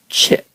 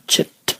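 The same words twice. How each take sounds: First: The word ends open without a released t. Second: The word ends with a released t sound. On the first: The speaker calls it right. "At the end, you just leave it open" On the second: The speaker calls it wrong. "do not close it off the way you would close it in English"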